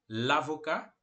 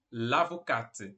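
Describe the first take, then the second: First: "l'avocat" ending in ka, silent t; lower, rising "l'avocat" without final t; masculino sem t. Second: "l'avocate" slowly, with sounded final t; low, slow "l'avocate", releasing the t; feminino com t. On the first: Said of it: "o advogado". ("l'avocat" com t mudo, la-vo-cá) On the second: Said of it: "a advogada". ("l'avocate" devagar, com t final audível) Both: Shown as a demonstration.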